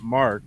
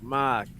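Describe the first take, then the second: First: The A vowel is said in an ordinary way. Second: The A vowel is exaggerated in a Swiss style. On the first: This is not how the Swiss say it. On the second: This is how the Swiss say it. "I'm trying to do the Swiss accent... I'm exaggerating, but the A is like"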